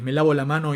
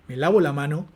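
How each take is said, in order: First: The pitch falls steadily to a low level. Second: The pitch peaks and then falls.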